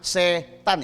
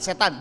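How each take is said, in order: First: It is split with a break between syllables. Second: It is said quickly as one smooth word. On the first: It names a person with the family name Tan. The speaker calls it wrong. "jangan setan, itu mertua saya ya. Marganya tan" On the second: It names the devil. The speaker calls it right. "Ngomongnya cepat"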